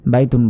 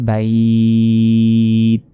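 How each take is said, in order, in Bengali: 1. শব্দটি nasal '-un' প্রান্ত দিয়ে শেষ হয়। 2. শব্দটি একটি খালি শেষ ব্যঞ্জনে থেমে যায়। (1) "আমরা কিন্তু কোনো টেনে পড়িনি" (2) "শেষ অক্ষরে এই সাকিন দিয়ে উচ্চারণ করতে হবে"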